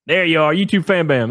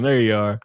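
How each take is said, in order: First: Calling out. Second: Said in the usual way. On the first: Real, not acted. Spots chatter, calls out.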